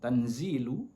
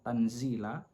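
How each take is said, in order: First: The word ends with a 'u' vowel. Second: The word ends with an 'a' vowel. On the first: The word is the predicate of an omitted subject. "dibaca dhammah" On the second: The word is the object of an omitted verb meaning 'read'. "dibaca difathahkan"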